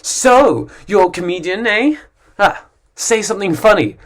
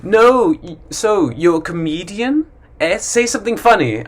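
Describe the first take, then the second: First: Pushy stranger. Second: Mock teasing, pitched up; pushy stranger. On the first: Retold or imitated. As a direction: goad the comedian with a sneer. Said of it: "there's always someone who says". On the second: Stranger pestering a comedian, mild mocking tone. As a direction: needle the comedian. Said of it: "there's always someone that says".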